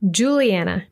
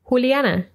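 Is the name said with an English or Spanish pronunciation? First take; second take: English; Spanish. First: It is said with English pronunciation. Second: It is said with Spanish pronunciation. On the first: "followed by the English pronunciation" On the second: "I'll read the Spanish pronunciation first"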